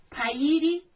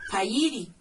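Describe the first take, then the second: First: Pairi said louder and higher, as a model to repeat; firm teacher demo of Pairi; clear model word. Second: Said in the usual way. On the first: Shown as a demonstration. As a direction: say Pairi out loud for the class to copy. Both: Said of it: "Voy a utilizar eso de pairi".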